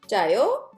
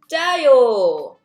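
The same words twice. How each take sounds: First: The voice rises at the end, a question. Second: The voice falls at the end, a statement.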